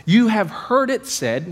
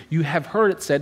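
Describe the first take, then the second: First: Raised, slow, weighty proclamation of "You have heard it said"; emphatic quote. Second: Said in the usual way. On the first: Retold or imitated. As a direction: pastor to church, voicing Jesus's solemn declaration. Pastor quoting Jesus's declaration.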